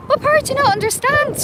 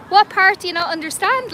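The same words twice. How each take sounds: First: Much higher, faster, pushing the question; exasperated, higher and faster; exasperated repeat. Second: Said in the usual way. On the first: Real, not acted. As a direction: demand it again, fed up and pitched way up.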